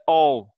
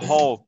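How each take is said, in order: First: The word begins without an H sound. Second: The word begins with an H sound. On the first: "é all" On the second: "Não fala hall"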